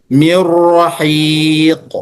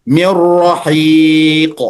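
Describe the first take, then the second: The two takes are said the same way.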